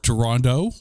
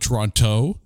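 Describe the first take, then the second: First: The last consonant sounds almost like a D. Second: The last consonant is a clear T sound.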